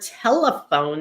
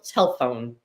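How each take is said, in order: First: All three syllables are pronounced. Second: A middle syllable is dropped, leaving two. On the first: The speaker calls it right. "is three syllables" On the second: The speaker calls it wrong. "often we hear telephone"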